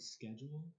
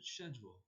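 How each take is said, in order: First: The word is said the American way. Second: The word is said the British way. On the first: "you know the word schedule" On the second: "over there they pronounce it schedule"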